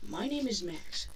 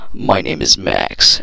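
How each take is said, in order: First: It is read in his normal voice. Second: It is read in a put-on narrator voice.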